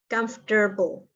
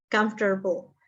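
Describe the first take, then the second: Both takes have the same delivery.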